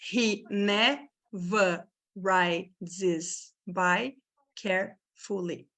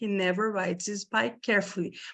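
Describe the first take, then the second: First: The sentence is said slowly. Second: The sentence is said quickly. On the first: "Primeiro você tem que tentar falar devagar" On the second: "Daí é só dar uma aceleradinha"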